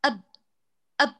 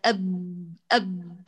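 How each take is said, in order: First: «أب» snap the ب shut, no stretch; correct clipped ab. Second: «أب» with the ب lengthened, a faulty stretch; «أب» let the closure leak and drag on; drawn-out wrong ab. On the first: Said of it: "انقطع، ما في مجال للامتداد". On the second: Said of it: "استجابة لهذا الامتداد". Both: Shown as a demonstration.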